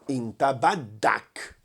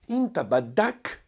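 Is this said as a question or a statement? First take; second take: statement; question. First: It is said with a plain statement tune. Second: It is said with a questioning tune. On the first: You want. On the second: Do you want?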